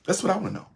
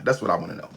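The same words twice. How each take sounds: First: Mock high question. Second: Said in the usual way. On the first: Shown as a demonstration.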